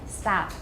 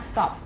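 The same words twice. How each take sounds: First: It is said with an American pronunciation. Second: It is said with a non-American pronunciation. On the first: The speaker calls it right. "Stop in America. I mean, at least the way I speak" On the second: The speaker calls it wrong. "Not stop"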